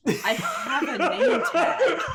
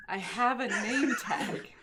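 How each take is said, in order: First: Laughing. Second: Said in the usual way. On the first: Real, not acted. Repeating, laughing.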